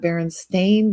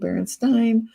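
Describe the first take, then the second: First: The last syllable sounds like 'stain'. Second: The last syllable sounds like 'stine'. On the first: This is the name as it is officially spelled. "only ever been the Berenstain Bears, like ... their paws got stained" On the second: This is the name as people remember it.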